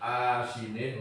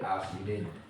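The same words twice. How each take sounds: First: The first vowel is held long. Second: The first vowel is kept short. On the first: "dengan dibaca panjang" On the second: "wal qasidan pendek"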